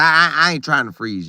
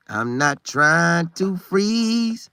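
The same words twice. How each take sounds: First: Said in the usual way. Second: Drawn out slowly, leaning on freeze; long, deliberate I'm not trying to freeze; slow emphatic repeat. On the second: Real, not acted. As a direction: stretch every word to hammer it home.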